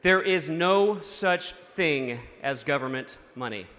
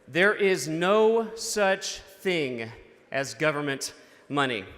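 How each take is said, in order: First: It is said at a normal pace. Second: It is said more slowly.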